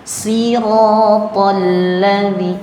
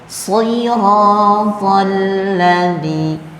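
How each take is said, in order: First: The first s is plain and thin. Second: The first s is heavy with an o colouring. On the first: The speaker calls it wrong. "yang keluar huruf sin" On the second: The speaker calls it right. "Beda dengan kalau dia tambahkan vokal o"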